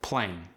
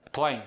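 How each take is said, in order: First: Said in the usual way. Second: "Playing" ending in a plain N, playin'; dropped G. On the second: Shown as a demonstration. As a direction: drop the G of "Playing". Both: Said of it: "dropping the G".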